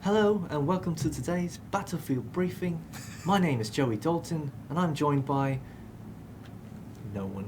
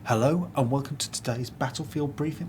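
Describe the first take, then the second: First: Higher, slow presenter voice; slow, grand host intro with a pitched-up lilt; Joey impression. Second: Lightly voiced presenter intro, a bright announcer lilt; Joey impression. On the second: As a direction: play a cheery video host opening the show. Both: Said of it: "That's my Joey impression".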